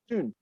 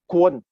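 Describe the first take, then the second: First: The name is said with a Mandarin pronunciation. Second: The name is said with a Vietnamese pronunciation. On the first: "But in Putonghua, it's not Quan, it's Tun" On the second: "I will pronounce the Vietnamese pronunciation is Quan"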